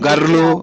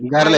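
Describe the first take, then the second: First: The word ends with an extra u vowel. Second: The word ends cleanly on the l sound. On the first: The speaker calls it wrong. "విచిత్రంగా చెప్తివే, ... అట్లా చెప్పకూడదు" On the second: The speaker calls it right. "గర్ల్ అవుతుంది"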